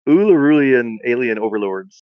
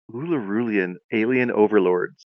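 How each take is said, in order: First: "Ulurulian alien overlords" slow and louder, savoring it; slow, emphatic take of "Ulurulian alien overlords"; relishing the phrase. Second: Said in the usual way. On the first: Shown as a demonstration. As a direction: proclaim "Ulurulian alien overlords" slowly, enjoying the sounds. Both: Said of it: "That's fun to say".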